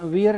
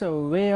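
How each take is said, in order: First: The vowel starts with a long ee sound. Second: The vowel is an ay-uh diphthong. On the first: The speaker calls it wrong. "इसका उच्चारण वियर नहीं होता है" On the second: The speaker calls it right. "Diphthong ए अ"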